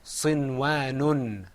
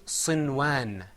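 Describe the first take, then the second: First: Sinwanun slow, with the extra nun clearly added at the end; with tanween. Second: Sinwan, ending flat on the first n with no extra nun; clipped Sinwan to show the missing sound; contrast without tanween. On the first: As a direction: stretch Sinwanun to show the tanween. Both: Shown as a demonstration. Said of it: "As opposed to Sinwan".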